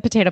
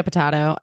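First: "potato" with a long AY in the middle. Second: "potato" with a broad AH in the middle. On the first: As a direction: say potato as puh-TAY-toh. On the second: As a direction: say potato as puh-TAH-toh. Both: Shown as a demonstration. Saying potato, potato idiom two ways.

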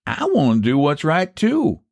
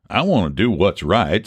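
First: High-pitched country counter-offer; pointed echo. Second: Said in the usual way. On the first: Acted. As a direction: echo him, leaning up high on "too". Rival echoes the offer after thought.

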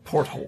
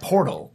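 First: "porthole" as port plus hole; porthole, the corrected word. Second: "portal" with a plain t in the middle; portal, the wrong word. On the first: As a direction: sound the h in "porthole". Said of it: "Not portal, porthole". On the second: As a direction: say "portal" as one smooth word, no h. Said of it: "Not portal". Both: Shown as a demonstration.

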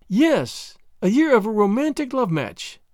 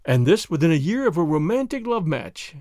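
First: Higher-pitched, emphatic echo; echoing agreement. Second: Probing remark at an even pitch; pointed query. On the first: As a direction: throw the words back, lilting high. Marguerite echoes his words back. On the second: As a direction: prod with understated irony. Chauvelin questions her year-old marriage. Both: Acted.

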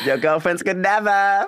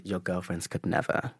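First: Put-on Your girlfriends could never, higher and louder, slow and savoring; loud sassy put-down. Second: Quiet sassy put-down. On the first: Shown as a demonstration. Repeating his comeback for the hosts, loud and sassy. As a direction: deliver the burn again, bigger and slower. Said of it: "How about that?". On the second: Retold or imitated. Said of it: "but what I did say is".

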